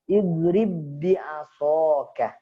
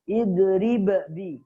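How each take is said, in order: First: The first b merges straight into the next. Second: The first b is released with a bounce. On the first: The speaker calls it right. "langsung masuk ... tanpa qalqalah" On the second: The speaker calls it wrong. "tidak boleh dibaca idrib bi, enggak boleh"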